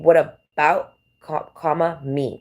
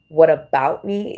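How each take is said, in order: First: "What about" then a pause before "me"; pause at the comma. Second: "What about me" run together in one slow smooth phrase; no comma pause. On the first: Speaker mimics others adding a comma, pausing before "me". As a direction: split the phrase with a comma break. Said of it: "They add an extra comma". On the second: Speaker demonstrates the version without commas, slow and unbroken. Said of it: "without commas". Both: Shown as a demonstration.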